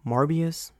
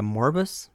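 First: Morbius in three syllables, MOR-bee-us, questioning; unsure pronunciation. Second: Morbus in two syllables, MOR-bus, questioning; unsure pronunciation. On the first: Unsure moviegoer trying the title as Morbius, questioning. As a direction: try out "Morbius?" with an ee before us. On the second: Unsure moviegoer trying the title as Morbus, questioning. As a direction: try out "Morbus?" without an i. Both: Shown as a demonstration. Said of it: "don't even know how to pronounce that".

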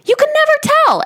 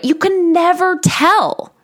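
First: "never" hit hard and high to drive the point home; emphatic never. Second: "never" lifted a little higher; first "You can never tell", a mild lift on "never"; stress on never. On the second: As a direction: lean lightly on "never". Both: Shown as a demonstration.

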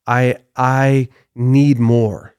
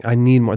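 First: Slow, stretched demand, leaning on need; drawn-out craving. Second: Said in the usual way. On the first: Retold or imitated. Preacher voicing Satan's greed to the congregation, slow and drawn out. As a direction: draw out I need more slowly, leaning hard on need. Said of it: "That's what the devil was saying". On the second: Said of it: "That's actually what Satan was saying".

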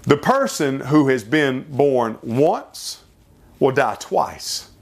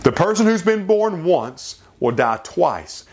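First: Slow, weighing "once" and "twice"; slow deliberate saying. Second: Higher, quicker restatement of the saying; repeated saying. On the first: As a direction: let each word land slowly. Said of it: "It's been said like this". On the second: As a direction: restate it with urging. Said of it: "Think about it". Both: Shown as a demonstration.

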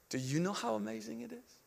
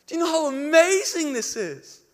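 First: Very soft, hushed asking; whispered question. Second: High, loud cry of wonder; screaming out. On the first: Spirit speaking into the preacher's heart, hushed. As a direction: ask it gently, almost whispering. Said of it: "the Spirit whispered in my heart". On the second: Preacher to the crowd around the tree, crying out. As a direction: proclaim it at full voice, exultant. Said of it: "wanted to scream out". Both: Retold or imitated.

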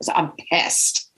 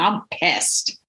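First: Breathy unvoiced whisper of I'm pissed; whispered aside. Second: Said in the usual way. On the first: Reliving road rage, she whispers it to herself. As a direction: drop to a whisper on the repeat.

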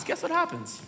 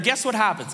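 First: Much softer, higher repeat; soft, teasing repeat; hushed suspense. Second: Said in the usual way. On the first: Real, not acted. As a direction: drop to a hush to build suspense.

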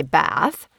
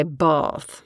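First: "Bath" with a flat a like "cat"; own Bath. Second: "Bath" with a long broad a, like "bahth"; British Bath. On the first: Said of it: "I would say Bath". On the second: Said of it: "So we have to say Bath". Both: Shown as a demonstration.

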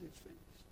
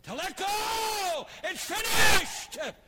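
First: Soft whispered repeat. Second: Slow, drawn-out shout, much higher and louder; triumphant shout. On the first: Preacher quietly repeating the victory cry, whispered. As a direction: let it fall to a whisper. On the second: Jesus on the cross shouting in triumph, slow and loud. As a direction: cry it out across the church. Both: Acted.

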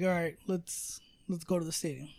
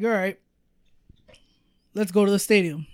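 First: The same words, muttered much softer; a low-key mumble to yourself; quiet retelling. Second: Said in the usual way. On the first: Retold or imitated. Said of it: "where I'm like". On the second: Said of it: "and I'm like".

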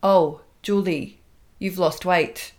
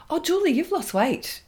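First: Slow, automated robotic delivery. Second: High, chirpy sing-song; chirpy colleague. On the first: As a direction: say it like a programmed machine. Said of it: "like it's automated, like it's a robotic response". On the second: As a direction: chirp it brightly. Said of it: "she would comment on my weight". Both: Retold or imitated.

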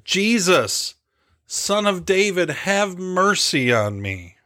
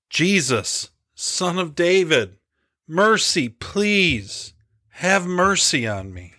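First: Higher, drawn-out cry for mercy, little added volume; restrained shout of a desperate beggar, ending slowly; insistent pleading shout. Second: Restrained yell, choked plea to a passing healer; pleading yell. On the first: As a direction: call out high, slowing on the final plea. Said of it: "he shouted even louder". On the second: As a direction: call out desperately, pitched well above narration. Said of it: "began yelling after the crowd". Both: Acted.

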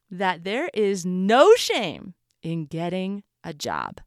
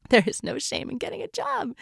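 First: Slow, weighted "that there is no shame in getting a job"; emphatic. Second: Said in the usual way. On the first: Shown as a demonstration. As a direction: lean on "no shame" and take it slowly. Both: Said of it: "I want to emphasize".

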